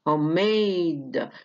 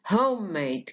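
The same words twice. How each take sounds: First: The stress is on the second syllable. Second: The stress is on the first syllable. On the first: "made هي اللي واخدة الايه الستريس" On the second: "بدل ما تبقى على made بقت على home"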